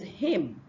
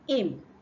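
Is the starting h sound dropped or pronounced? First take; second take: pronounced; dropped. First: The word begins with a clear h sound. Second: The word begins without any h sound. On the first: The speaker calls it right. "The next one is" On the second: The speaker calls it wrong. "and not"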